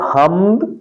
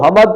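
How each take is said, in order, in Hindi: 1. m और d एक साथ बोले जाते हैं। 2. m और d के बीच एक स्वर डाला जाता है। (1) "दुरुस्त लफ्ज है हम्द" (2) "हम्द को हमद पढ़ना ... गलत है"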